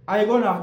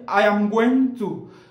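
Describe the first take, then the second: First: The words are shortened and run together. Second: Every word is said fully and separately. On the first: This is the advanced form used by native speakers. "en anglais sophistiqué, au lieu de dire I am going to, on dit plutôt I gonna" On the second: This is the standard form taught to learners. "En anglais standard, par exemple, on dit I am going to"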